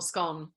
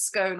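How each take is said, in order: First: SCONE rhyming with "gone"; short-o pronunciation. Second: SCONE rhyming with "bone"; long-o pronunciation. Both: Shown as a demonstration. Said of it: "whether it's scone or scone".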